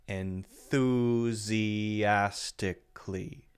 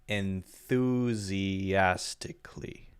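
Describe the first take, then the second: No difference in how they are said.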